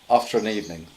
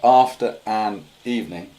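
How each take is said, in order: First: The words run together without breaks. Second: Each word is pronounced separately. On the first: The speaker calls it right. "they sort of link together" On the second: The speaker calls it wrong.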